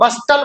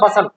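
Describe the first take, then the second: First: The t sound is pronounced. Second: The t sound is silent. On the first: The speaker calls it wrong. "अब इसको बस्टल मत बोलना" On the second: The speaker calls it right. "टी इसमें silent है जी"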